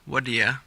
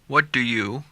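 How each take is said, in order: First: The phrase is reduced, ending in ya. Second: The phrase is said in full.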